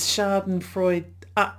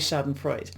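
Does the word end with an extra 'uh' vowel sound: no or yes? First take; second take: yes; no. First: The word ends with a clear final 'uh' vowel. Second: The word ends without a clear final 'uh' vowel. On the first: The speaker calls it right. "the way it's pronounced correctly is Schadenfreude uh, with a little uh at the end" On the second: The speaker calls it wrong. "but I just say Schadenfreude"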